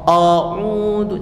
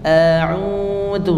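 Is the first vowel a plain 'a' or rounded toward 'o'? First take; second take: rounded; plain. First: The first vowel is rounded, sounding like 'o'. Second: The first vowel is a plain open 'a'. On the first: The speaker calls it wrong. "O o a'udzu, jangan" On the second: The speaker calls it right. "A biasa seperti kita mengucapkan vokal a"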